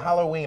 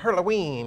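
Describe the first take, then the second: First: It is said in the speaker's ordinary voice. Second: It is said in an imitated character's voice.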